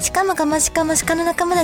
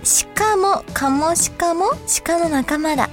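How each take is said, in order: First: It is read very fast, as a tongue twister. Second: It is read at a normal, careful speed. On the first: "3 回連続で早口でいきますね。" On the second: "1 回読みますね。"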